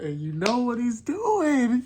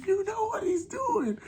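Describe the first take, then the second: First: High, louder and slower, building hype; excited. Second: Much higher again, almost a squeal; squealing excitement. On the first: Fan hyping the summoning to viewers, excited and high. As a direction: tease the big reveal, voice rising. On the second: Fan repeating the tease to viewers, squealing high. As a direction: let the hype crack up to the top. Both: Real, not acted.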